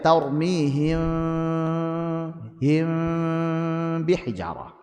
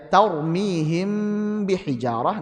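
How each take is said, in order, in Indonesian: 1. Huruf m sedikit direnggangkan dari b. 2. Huruf m disambung rapat dengan b.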